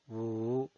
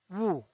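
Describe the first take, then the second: First: The pitch dips low, then rises. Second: The pitch falls from high to low. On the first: "desciende primero ... para ascender luego" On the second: "El cuarto tono es un tono bajado"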